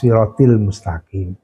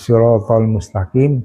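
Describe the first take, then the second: First: The vowel after 'sirat' is 'i'. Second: The vowel after 'sirat' is 'a'. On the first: The speaker calls it wrong. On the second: The speaker calls it right.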